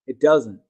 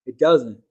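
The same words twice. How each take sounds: The two takes are said the same way.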